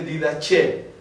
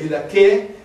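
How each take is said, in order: First: The consonant before the last vowel is a ch. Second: The consonant before the last vowel is a k. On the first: This is the ecclesiastical pronunciation. "La eclesiástica dice" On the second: This is the classical pronunciation. "La clásica usa la K en el C"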